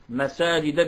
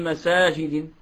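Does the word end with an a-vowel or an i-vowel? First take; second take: a-vowel; i-vowel. First: The word ends with a short a vowel. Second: The word ends with a short i vowel. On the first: The speaker calls it right. "مساجد بالفتح" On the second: The speaker calls it wrong. "لماذا لم نقل في مساجد يعني بالكسر على الأصل؟"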